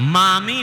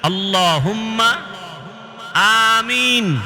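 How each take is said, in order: First: The words run together into one with m. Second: The two words are said as separate words. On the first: The speaker calls it wrong. "না মামিন" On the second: The speaker calls it right. "আল্লাহুম্মা এক শব্দ, আমিন আর এক শব্দ।"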